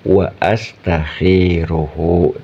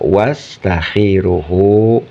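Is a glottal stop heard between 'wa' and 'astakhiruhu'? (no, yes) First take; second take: yes; no. First: A glottal stop separates the two words. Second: The two words run together without a glottal stop. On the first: The speaker calls it right. "Tepatnya adalah wa astakhiruhu" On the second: The speaker calls it wrong. "tidak tepat alias salah kalau dibaca wastakhiruhu"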